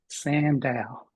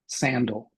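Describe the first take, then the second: First: The second vowel is a full, clear vowel. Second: The second vowel is a reduced schwa. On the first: The speaker calls it wrong. "we would read sandal ... that's not right" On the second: The speaker calls it right. "How do we actually say this word? ... That's right"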